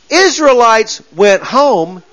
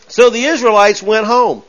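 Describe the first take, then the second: First: Slow, deliberate weight on "Israelites"; slow pointed emphasis. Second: Said in the usual way. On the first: Shown as a demonstration. Preacher pointing out the split, "Israelites" slow and stressed. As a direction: draw out "Israelites went home" word by word. Repeats slowly after "look at this.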